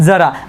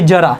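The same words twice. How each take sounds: First: The first consonant is a dental 'dz' sound. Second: The first consonant is a palatal 'j' sound. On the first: It means a little. "याला आपण अनुसार आपण याचा उल्लेख करणार आहे" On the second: It means old age. "तालव्यामध्ये जो काय आपल्याला शब्द दिलेला आहे"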